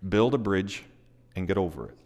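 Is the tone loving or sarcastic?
loving. The phrase is said warmly and gently. It is meant as an encouragement. "I'll say it in a very loving way rather than a very sarcastic way"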